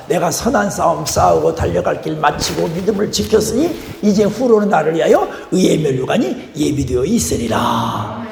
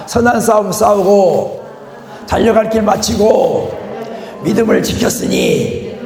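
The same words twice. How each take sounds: First: Said in the usual way. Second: Slow and weighty, each phrase 선한 싸움 싸우고, 달려갈 길 마치고, 믿음을 지켰으니 set apart; slow, emphatic recitation. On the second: Shown as a demonstration. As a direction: recite it again slowly, leaning on every phrase. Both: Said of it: "한번 더".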